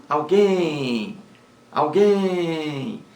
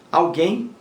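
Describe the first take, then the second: First: "alguém" with a high, stretched final guém; quick al, then a long falling guém in "alguém"; stress on last syllable. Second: Said in the usual way. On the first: Shown as a demonstration. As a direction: hold the stressed end of "alguém". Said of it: "A sílaba mais forte é a última".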